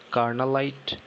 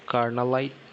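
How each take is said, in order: Both takes have the same delivery.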